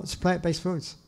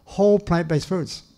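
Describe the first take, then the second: First: Said in the usual way. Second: Emphasize whole as the key word; stress on whole. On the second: Shown as a demonstration. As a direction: hit the word whole so it stands out from plant-based foods. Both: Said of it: "And I emphasize the word whole".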